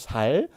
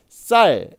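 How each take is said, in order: First: The first consonant is plain, not tense. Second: The first consonant is tense. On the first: "그냥 살 그러죠" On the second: "이 쌀이라는 발음이 나지가 않죠"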